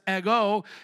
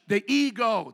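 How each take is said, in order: First: The word is said with a Greek pronunciation. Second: The word is said with an English pronunciation. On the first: "pronounced with the Greek accents" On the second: "That's English"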